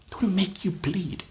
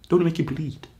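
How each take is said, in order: First: Whisper. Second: Said in the usual way. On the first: Acted. Pep talk, repeated as whisper.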